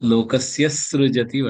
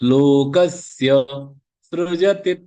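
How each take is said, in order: First: The words run together with an extra hissing sound. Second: A short break separates the two words cleanly. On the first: The speaker calls it wrong. "Issue issue வரக்கூடாது ... வேண்டாம்" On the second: The speaker calls it right. "கஸ்யக்கு அப்புறம் ஒரு pass எடுத்ததுனால ஸ்ரு கரெக்டா வரும்"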